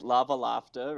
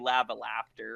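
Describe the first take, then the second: First: It is said in a southern British accent. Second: It is said in a Canadian accent. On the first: "it must be the latter" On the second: "For me, it'd be ... Canadian accent"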